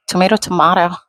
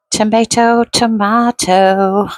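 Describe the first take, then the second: First: Said in the usual way. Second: Sing-song Tomato then a slow drawn-out tomato; playful tomato, tomato. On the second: Shown as a demonstration. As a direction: stretch the second tomato slowly, higher.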